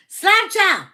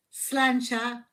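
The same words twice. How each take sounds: First: Loud, high-pitched shout of Sláinte; hearty toast. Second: Said in the usual way. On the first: Real, not acted. Toasts again after explaining pronunciation. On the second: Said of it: "I just don't say it right".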